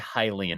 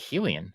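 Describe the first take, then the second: First: The first syllable sounds like 'high'. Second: The first syllable sounds like 'heh'. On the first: The speaker calls it right. "So I will try to say Hylian" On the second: The speaker calls it wrong. "I want to say Helian"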